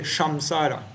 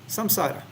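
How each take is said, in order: First: The word begins with an sh sound. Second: The word begins with a plain s sound. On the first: The speaker calls it wrong. "You don't say shamsara" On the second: The speaker calls it right. "sa without anything"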